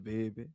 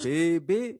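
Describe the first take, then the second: First: Said in the usual way. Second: "baby" stretched out to mock the other accent; imitated stretched baby. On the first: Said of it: "it's just baby". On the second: Guest copying how the host says it, stretched "baby". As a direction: mimic "baby" with a long, stressed A. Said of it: "See how you stretch that baby?".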